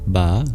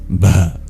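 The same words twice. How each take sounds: First: The b is plain, without breathiness. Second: The b is breathy, with air after it. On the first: The speaker calls it wrong. "instead of ba" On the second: The speaker calls it right. "makes the B a breathy B"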